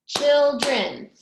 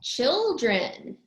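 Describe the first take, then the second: First: Put-on CHILDREN in two loud beats, CHIL and DREN; syllable by syllable. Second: Said in the usual way. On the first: Shown as a demonstration. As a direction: clap out both parts of CHILDREN, loudly. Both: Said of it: "That has two syllables".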